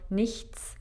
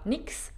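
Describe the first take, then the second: First: The word ends with a clear 'chts' sound. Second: The word ends with a reduced 'ks' sound. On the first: This is careful, clear speech. "místo nichts" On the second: This is fast, casual native speech. "řeknu třeba nix, tak jako to dělají rodilí mluvčí"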